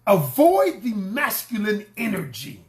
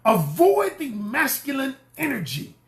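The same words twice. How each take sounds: First: Said in the usual way. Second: Emphatic higher repeat; louder, higher repeat. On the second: Shown as a demonstration. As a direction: say it again higher, pushing it home. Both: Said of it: "I need to scream this louder".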